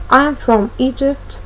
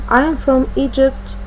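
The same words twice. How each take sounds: The two takes are said the same way.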